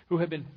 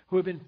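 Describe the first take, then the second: No difference in how they are said.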